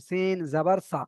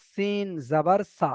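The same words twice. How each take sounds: First: সিন জাবার সা said short and crisp, with no stretching; quick, tight spelling, the right way; short clipped syllables. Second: Slow, stretched-out syllables; a slow, drawn-out demo of how not to spell it; wrong drawn-out spelling. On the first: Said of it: "ছোট ছোট করে একদম". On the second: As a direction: drag each syllable out, the wrong way. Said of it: "এমন ভাবে বানান হচ্ছে না কিন্তু". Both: Shown as a demonstration.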